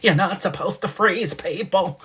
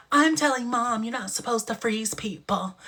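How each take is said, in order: First: Uncle Arthur voice. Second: Lightly voiced fussy old uncle; a hint of a prissy tattling uncle; Uncle Arthur voice. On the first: Retold or imitated. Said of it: "sound like Uncle Arthur". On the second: Child tattles to mom in a light Uncle Arthur voice. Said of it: "I made her sound like Uncle Arthur".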